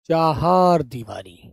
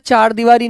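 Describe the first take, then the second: First: The first word is two syllables, chahar. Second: The first word is one syllable, char. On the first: The speaker calls it right. "जब चार होता है ना उसे चहार कहते हैं" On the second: The speaker calls it wrong. "चार दीवारी नहीं कहते उसे यार"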